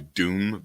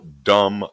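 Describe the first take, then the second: First: The vowel is long, as in 'doom'. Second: The vowel is short, as in 'dumb'. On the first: The speaker calls it right. "It's probably Doom" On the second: The speaker calls it wrong. "I'm gonna say it like that"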